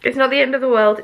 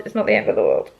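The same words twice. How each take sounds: First: Said in the usual way. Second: Much lower, mock-solemn reassurance; deep put-on voice. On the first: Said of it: "repeated reassurance, first take". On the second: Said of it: "repeated in a deep put-on voice".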